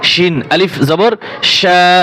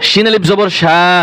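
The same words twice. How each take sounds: First: Each sound is articulated clearly and distinctly. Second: The sounds are slurred and not fully articulated. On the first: The speaker calls it right. "স্পষ্ট করে বলতে হবে" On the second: The speaker calls it wrong. "অনেকে পরে ... না ওরকম না"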